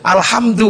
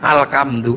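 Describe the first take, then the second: First: It is read with standard Arabic pronunciation. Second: It is read with a Javanese accent.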